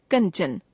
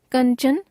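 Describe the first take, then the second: First: Kanchan with the pitch falling; corrected form, falling. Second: Kanchan with the pitch rising; Kanchan left hanging on a rise; error example, rising. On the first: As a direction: close off Kanchan with a fall. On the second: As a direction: lift the end of Kanchan. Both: Shown as a demonstration. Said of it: "अनुस्वार और अनुनासिक संबंधी अशुद्धियां".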